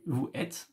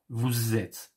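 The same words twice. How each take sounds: First: Vous and êtes are said without a linking sound. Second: The s sound links vous to êtes. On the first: "Doesn't sound too French" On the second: "you can make the, link, the liaison"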